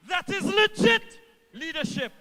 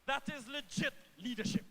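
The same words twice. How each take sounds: First: Louder rally emphasis. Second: Said in the usual way. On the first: Real, not acted. Minister rallying supporters, loud emphatic repeat. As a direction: repeat it louder and higher, driving it home. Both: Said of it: "repeats line for emphasis".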